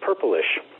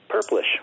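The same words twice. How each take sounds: First: The word is said with three syllables. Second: The word is said with two syllables. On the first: The speaker calls it wrong. "it was pronounced as three syllables" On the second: The speaker calls it right. "It becomes a two-syllable word, just"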